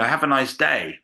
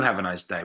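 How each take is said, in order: First: Bright American greeting; chirpy service voice; cheerful American. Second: Lower, softer, deadpan have a nice day; flat English refusal. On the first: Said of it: "your default mode is". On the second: English speaker refusing the cheery phrase, muttered flat. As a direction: mutter it like a Brit who won't say it. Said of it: "we don't do". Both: Retold or imitated.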